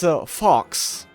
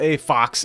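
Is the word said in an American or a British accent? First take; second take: British; American. First: It is said in a British accent. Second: It is said in an American accent. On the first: The speaker calls it right. "I keep forgetting about my British accent" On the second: The speaker calls it wrong. "It's not a fox"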